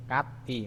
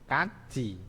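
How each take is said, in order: First: "kat i" split after a stopped t; as written. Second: "kaji" with t and i fused into ji; as pronounced. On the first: Teacher reads the spelling first, separated "kat i". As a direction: keep "kat i" as two separate syllables. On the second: Teacher shows how it is read, palatalized "kaji". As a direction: link "kaji" with a j sound. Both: Shown as a demonstration.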